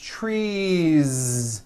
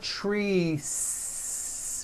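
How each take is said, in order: First: The word ends with a voiced Z sound. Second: The word ends with an unvoiced S sound. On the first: The speaker calls it right. "with that voiced ending" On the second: The speaker calls it wrong. "It's not trees with an unvoiced S"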